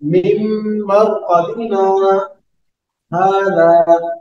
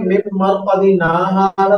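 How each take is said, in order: First: The voice stops briefly before the last word. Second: The words run on without a stop. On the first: The speaker calls it right. "सांस नहीं तोड़नी, सिर्फ आवाज को रोकना है" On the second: The speaker calls it wrong. "तो फिर सकता नहीं हुआ"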